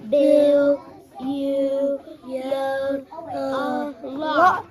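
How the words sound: It is said excitedly, like an exclamation.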